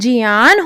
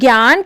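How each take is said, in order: First: The word begins with a 'jy' sound. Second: The word begins with a 'gy' sound. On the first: This is how it should really be said. The speaker calls it right. "वह वास्तव में जियान होना चाहिए" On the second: This is how people commonly say it. The speaker calls it wrong. "जिसे हम ज्ञान कहते हैं"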